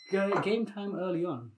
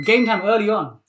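First: Softer repeat of an announcement; quiet echo. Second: Louder, lively announcement; announcing call. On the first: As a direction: drop it right down in volume. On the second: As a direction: call it out to the class. Announcing the game, first take. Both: Real, not acted.

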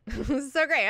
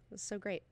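First: Louder with a laugh; laughing delight. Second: Softer, murmured to himself; quiet murmur of delight. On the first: Laughs while repeating it. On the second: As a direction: savour it under your breath. Repeats after quiet line. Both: Real, not acted.

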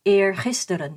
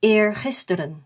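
Both takes have the same delivery.

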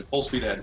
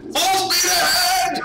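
First: Said in the usual way. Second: Long, high, drawn-out holler; very loud, high-pitched stretched shout; yelling. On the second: Acted. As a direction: bellow it slowly like a battle cry. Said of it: "sorry for my yelling".

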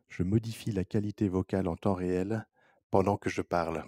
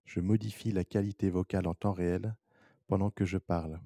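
No difference in how they are said.

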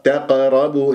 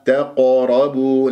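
First: تقربوا with a light, thinned ق; thin qaf. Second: تقربوا slow, with a full, heavy ق; heavy qaf. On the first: Teacher demonstrates the mistake, qaf made thin. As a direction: flatten the qaf in تقربوا, no heaviness. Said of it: "قاف مرققة". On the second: Teacher corrects the mistake, qaf made heavy. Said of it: "لازم تعطيها تفخيم". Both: Shown as a demonstration.

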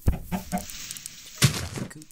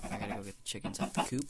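First: Slow higher sing-song line. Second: Said in the usual way. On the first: Shown as a demonstration. Gamer chanting chickens out the coop, slow and higher. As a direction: drawl it out like a chant. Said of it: "rhyme said slow, higher". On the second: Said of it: "sets up rhyme".

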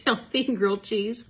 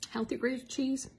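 First: "Healthy" stressed, louder and higher; confident retake. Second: "Healthy grilled cheese?" rising like a question; "cheese" lifted up as a question; questioning rise. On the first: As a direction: punch "Healthy", firm and sure. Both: Shown as a demonstration. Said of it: "That didn't come out right".

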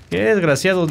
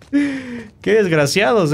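First: Said in the usual way. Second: Slow, high, laughing scorn; laughing insult. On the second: Real, not acted. Gamer mocking hidden enemies, slow laughing scorn.

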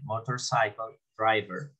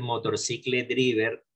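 First: "Motorcycle driver" slowly, with SAI-kol and DRAI-ver; correct English pronunciation. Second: "motorcycle driver" read as spelt in Spanish, mo-tor-SI-cle DRI-ver; Spanish-style misreading. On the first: Teacher models it for students, "Motorcycle driver" pronounced clearly in English. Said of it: "No, no, aquí la tienen". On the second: Teacher warns students off a misreading, "motorcycle driver" mispronounced Spanish-style. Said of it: "Algunos no van a decir". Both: Shown as a demonstration.

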